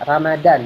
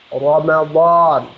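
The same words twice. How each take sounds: First: The first r is plain and light. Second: The first r is heavy and thick. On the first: "itu kan versi orang Indonesia"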